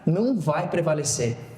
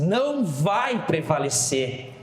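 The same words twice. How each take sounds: First: It is said with ordinary force. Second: It is said with strong emphasis.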